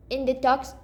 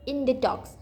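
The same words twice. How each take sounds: The two takes are said the same way.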